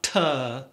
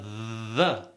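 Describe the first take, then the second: First: The word begins with a hard t sound. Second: The word begins with a voiced th sound. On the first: The speaker calls it wrong. "not tuh" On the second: The speaker calls it right. "but the"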